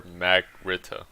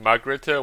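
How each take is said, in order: First: "Magrita" with a short flat "a" as in mag, MAG-RIT-uh; second pronunciation option. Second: "Margrita" with an open "ah" in the first syllable, mahg-RIT-uh; first pronunciation option. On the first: Player weighing a garrison's name, second pronunciation option. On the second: Player unsure how to say a garrison's name, first pronunciation option. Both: Shown as a demonstration. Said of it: "Is it Margrita or Magrita?".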